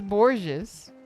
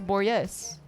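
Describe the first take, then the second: First: The name rhymes with gorgeous. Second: The name does not rhyme with gorgeous. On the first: The speaker calls it wrong. "Like gorgeous" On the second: The speaker calls it right. "But no, his name is Borges"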